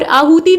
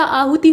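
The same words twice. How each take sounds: First: आहुति with a long ee at the end; wrong long ending. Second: आहुति ending in short i; light quick ending on आहुति; short final i. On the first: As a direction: say आहुति as aahutee. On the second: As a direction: say आहुति as aahuti. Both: Shown as a demonstration. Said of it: "त पे छोटी की मात्रा".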